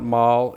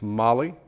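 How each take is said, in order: First: The name is said as one syllable. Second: The name is said as two syllables. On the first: The speaker calls it wrong. "It's not Mol" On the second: The speaker calls it right. "it's Molly"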